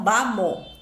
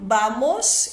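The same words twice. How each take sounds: First: The final s sound is dropped. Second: The final s sound is pronounced. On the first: "eles falam" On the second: "em vez de falar"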